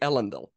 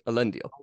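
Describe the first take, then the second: First: The stress is on the first syllable. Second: The stress is on the second syllable. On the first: The speaker calls it wrong. "You're saying Elendil" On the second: The speaker calls it right. "Emphasis on the second E, not on the first"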